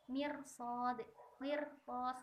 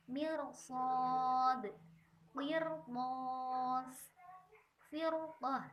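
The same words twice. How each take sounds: First: Mirsad, qirtas with a light, thin r, the wrong way; thin the r in qirtas as a mistake. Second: Mirsad and qirtas with a heavy, thick r, tongue root raised; thick r, correct. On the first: Teacher demonstrating the forbidden thin r. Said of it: "Nah, ini tidak boleh". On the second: Teacher showing students the correct thick r. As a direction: say firqah with a full, dark r. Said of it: "maka harus dibaca tebal". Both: Shown as a demonstration.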